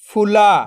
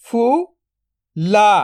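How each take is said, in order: First: Said in the usual way. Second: "फुला" split into फु, then ला, very slow; drawn-out breakdown of "फुला"; syllable by syllable. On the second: Shown as a demonstration. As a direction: sound out फु ... ला with a long gap. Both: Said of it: "तो मिलके बन जाएगा".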